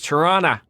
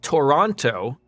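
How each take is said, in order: First: It is said the relaxed local way. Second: It is said the careful spelled-out way. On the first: The speaker is from the city. The speaker calls it right. "it's it's Toronto. If you're if you're a local" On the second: The speaker only knows the name from a map. The speaker calls it wrong. "It's not Toronto, like someone who would just see it on a map"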